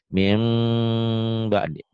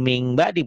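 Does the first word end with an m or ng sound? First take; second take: m; ng. First: The first word ends in a nasal m sound. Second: The first word ends in an ng sound. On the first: The speaker calls it right. "Nih lihat dengerin ya. ... Mim bunyi M-nya agak bindeng" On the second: The speaker calls it wrong. "jangan ming ba'di"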